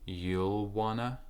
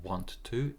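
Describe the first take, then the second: First: The words blend into the reduced form 'wanna'. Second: Both words are said fully and separately. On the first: The speaker calls it right. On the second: The speaker calls it wrong. "it's not want to"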